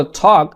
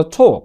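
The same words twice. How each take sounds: First: American "talk", with an open AW vowel; "talk" in American style, open vowel; American pronunciation. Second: British "talk", with a rounded OH-like vowel; "talk" in British style, rounded vowel; British pronunciation. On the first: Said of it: "আমেরিকানরা বলে talk". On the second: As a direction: say "talk" the British way, close to TOHK. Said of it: "আর ব্রিটিশরা বলে talk". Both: Shown as a demonstration.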